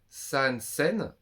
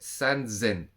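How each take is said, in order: First: The second word begins with an S sound. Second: The second word begins with a Z sound. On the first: The speaker calls it wrong. "On dit pas san sen" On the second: The speaker calls it right. "on dit san zen, avec un Z"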